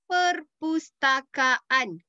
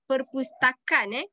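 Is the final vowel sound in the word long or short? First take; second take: long; short. First: The final vowel sound is long, a double a. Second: The final vowel sound is short, a single a. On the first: The speaker calls it right. "Kaan, not perpustakaan. See, they have double A" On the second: The speaker calls it wrong. "not perpustakaan"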